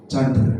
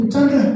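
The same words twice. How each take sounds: First: Said in the usual way. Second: Higher, louder call of the name "Chandra"; "Chandra" called up high and loud, falling at the end. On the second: Retold or imitated. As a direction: call out "Chandra" as if answering a roll. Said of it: "Saya juga sebut waktu itu".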